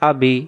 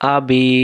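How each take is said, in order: First: The final vowel is cut short. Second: The final vowel is held long. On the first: The speaker calls it wrong. "আমি যদি বলি আবি, আবি দুই অক্ষর হলো, ইয়া অক্ষর বাদ গেল" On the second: The speaker calls it right. "জের টানলে ইয়া সাকিন আসে"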